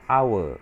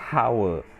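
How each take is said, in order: First: The word starts without an H sound. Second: The word starts with an audible H sound. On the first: The speaker calls it right. "the H is silent. You don't sound the H. So you pronounce it hour" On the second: The speaker calls it wrong. "not hour"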